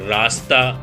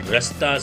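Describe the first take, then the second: First: The first vowel is drawn out long. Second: The first vowel is short.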